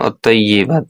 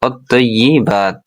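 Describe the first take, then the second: First: The vowel after 'tayy' sounds like 'e'. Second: The vowel after 'tayy' sounds like 'i'. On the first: The speaker calls it wrong. "অত্তয়্যেবাত না" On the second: The speaker calls it right. "ই অন্ত্যস্ত দীর্ঘিকার হলে ই হবে"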